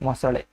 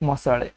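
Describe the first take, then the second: The two takes are said the same way.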